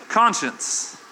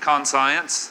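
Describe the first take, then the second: First: The second part sounds like shuns. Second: The second part sounds like the word science.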